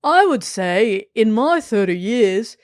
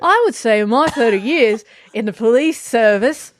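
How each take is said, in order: First: Reads the quote slowly in an Australian accent. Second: Put-on full Australian accent on the police quote. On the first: Real, not acted. Reading the quote again, still in Australian accent. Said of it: "oh, it's still Australian". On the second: Told to go with it, reading in Australian accent. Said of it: "This is the best accent I've ever done in Australian".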